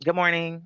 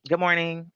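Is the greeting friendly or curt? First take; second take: curt; curt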